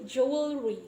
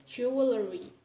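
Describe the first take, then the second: First: Jewelry as "jewel-ree", louder; no inserted vowel. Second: Jewelry as "jew-uh-le-ree"; inserted vowel. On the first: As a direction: join L straight to R in jewelry. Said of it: "it will be hard to pronounce". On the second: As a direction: ease jewelry with a vowel between L and R. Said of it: "we can pronounce it easily as". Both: Shown as a demonstration.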